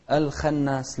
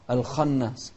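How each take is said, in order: First: "الخناس" with a light kha, fronted vowel like khe; thin out the kha of "الخناس"; wrongly thin kha. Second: "الخناس" with a thick kha and dark open vowel; heavy kha. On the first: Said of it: "لا، الخناس غلط". (ترقيق الخاء خطأً في "الخناس") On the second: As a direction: say the kha of "الخناس" full and backed. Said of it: "من أحرف التفخيم". (تفخيم الخاء في "الخناس") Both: Shown as a demonstration.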